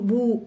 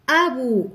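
First: بو starting straight on b, no opening vowel; hamza dropped. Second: أبو starting on a clear glottal a; hamza pronounced. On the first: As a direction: drop the first glottal a, leaving بو. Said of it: "ما يمكنناش نقولوا بو". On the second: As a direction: sound the first a of أبو in full. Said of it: "لا". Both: Shown as a demonstration.

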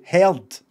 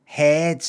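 First: Said in the usual way. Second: "Head." said as head, no r sound, short e; "Head." like other English folks, r dropped; English pronunciation. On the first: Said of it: "Like I do". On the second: Shown as a demonstration. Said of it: "the way other English folks say heard".

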